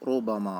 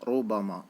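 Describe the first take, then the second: Both takes have the same delivery.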